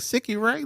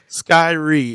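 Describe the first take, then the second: First: The name is said with three syllables. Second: The name is said with two syllables. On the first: The speaker calls it wrong. "I was like Sicky Ray, like everybody says" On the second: The speaker calls it right. "Skyree is is how you pronounce that"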